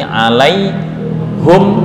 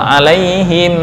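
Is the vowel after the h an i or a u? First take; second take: u; i. First: The vowel after the h is u. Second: The vowel after the h is i. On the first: "dengan membaca dhammah pada ha" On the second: "membaca kasrah normal"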